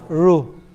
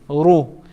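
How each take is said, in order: First: The r is said light, with a thin mouth. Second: The r is said heavy, with a full mouth. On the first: The speaker calls it wrong. "Instead of" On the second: The speaker calls it right. "We're talking about Ra with U"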